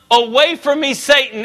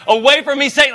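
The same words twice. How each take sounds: First: Said in the usual way. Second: Jesus yelling at Satan, lightly acted; all caps yell. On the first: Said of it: "And then what's after Satan?". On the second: Shown as a demonstration. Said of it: "if that was in all caps".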